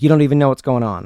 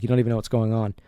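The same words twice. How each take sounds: First: Loud, fast, hammed-up angry comeback; a retold aggressive brush-off, rushed and loud; agitated retort. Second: Subdued, level, mildly somber murmur. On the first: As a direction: snap it back at him in mock anger. Agitated guy retorting in quarrel. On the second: Retold or imitated. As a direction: say it with the fight gone out of him. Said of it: "almost in a somber tone".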